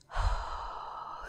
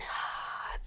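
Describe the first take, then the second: First: Soft unvoiced exhale through a smile; smiling exhale. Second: Soft, open unvoiced breath out; exhale without smile. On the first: Showing how a smile changes breathing, soft smiling exhale. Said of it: "it's more like a different vowel". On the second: Contrasting it with a smiling breath, plain soft exhale. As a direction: breathe out quietly, mouth relaxed and unsmiling. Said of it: "more like a different vowel than". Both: Shown as a demonstration.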